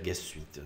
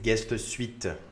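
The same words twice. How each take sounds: First: The name is said quickly with softened, reduced sounds. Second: The name is said carefully with every sound clear. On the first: "quand c'est dit vite, on peut dire guest suite" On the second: "c'est guest suite"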